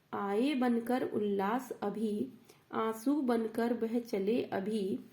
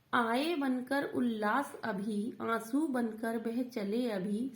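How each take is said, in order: No difference in how they are said.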